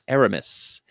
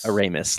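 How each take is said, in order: First: The name does not sound like ignoramus. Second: The name sounds like ignoramus. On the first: The speaker calls it right. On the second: The speaker calls it wrong.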